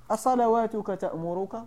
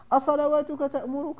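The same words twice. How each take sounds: First: Said in the usual way. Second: Higher, mocking rise on أصلواتك; mocking question. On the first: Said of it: "قصدوا بهذا السؤال هذا، التهكم". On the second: Shown as a demonstration. Salih's people taunting the prophet, mocking rise. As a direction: sneer the question up at the end. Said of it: "التهكم به عليه الصلاة والسلام".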